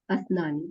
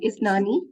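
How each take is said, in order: First: The word begins with an 'a' vowel. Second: The word begins with an 'i' vowel. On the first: The speaker calls it wrong. "Asnani or Isnani. I'm always confused" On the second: The speaker calls it right. "sorry, Isnani"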